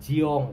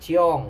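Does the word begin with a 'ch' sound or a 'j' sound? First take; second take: j; ch. First: The word begins with a voiced 'j' sound. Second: The word begins with a voiceless 'ch' sound. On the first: This is the Surabaya and Central Java way of saying it. "Medok ya bahasanya jiong" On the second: This is the Jakarta way of saying it. "Kalau di Jakarta dan bahasa-bahasa lainnya ciong"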